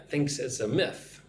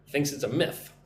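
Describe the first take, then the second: No difference in how they are said.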